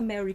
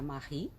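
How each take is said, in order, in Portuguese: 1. O nome soa como o nome inglês "Mary". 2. O nome é pronunciado do jeito francês, "Marie". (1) "essa mulher não é inglesa?" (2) "Então é Marie"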